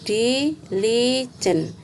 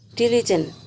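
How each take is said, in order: First: The word is broken into separate syllables. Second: The word is said smoothly as one unit.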